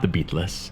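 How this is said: Beatles is said with a Hungarian-style pronunciation. The speaker calls it wrong. "I hear Hungarians say this all the time. They say Beatles"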